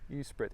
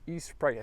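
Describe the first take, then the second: First: The ending does not rhyme with Sprite. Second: The ending rhymes with Sprite. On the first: The speaker calls it wrong. "I hope I'm pronouncing that correctly" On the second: The speaker calls it right. "like the drink, soft drink, Sprite"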